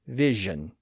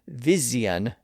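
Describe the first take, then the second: First: The middle consonant is a ZH sound. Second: The middle consonant is a plain Z sound. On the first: This is the newer pronunciation. "it turned into a zh sound" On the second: This is the older pronunciation. "the letter S was pronounced as a Z"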